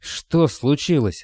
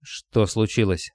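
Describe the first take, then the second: First: Slow, higher-pitched growl; tense roar held in check; growled demand. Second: Slow question in a wooden voice; wooden, emotionless. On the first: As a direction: growl the question, stretching it out. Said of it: "рыкнул Николай". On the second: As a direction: ask it slowly, drained of all emotion. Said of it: "спросил Николай деревянным голосом, лишённым и намёка на эмоции". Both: A narrator's reading.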